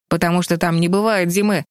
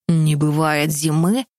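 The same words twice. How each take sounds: First: Said in the usual way. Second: Slow, musing question; thoughtful. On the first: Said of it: "объяснил Тим". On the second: A narrator's reading. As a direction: ponder it aloud slowly. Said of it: "переспросил Джерри задумчиво".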